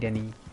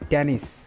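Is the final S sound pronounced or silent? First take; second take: silent; pronounced. First: The final S sound is silent. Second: The final S sound is pronounced. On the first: The speaker calls it right. "You don't pronounce the S" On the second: The speaker calls it wrong. "when it comes to an English spelling"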